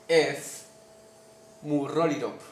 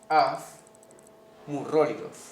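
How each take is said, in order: First: The word ends with a p sound. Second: The word ends with a v sound. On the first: "Como si fuera una P acá y una E acá" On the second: "se pronuncia ordinariamente af murrolirov"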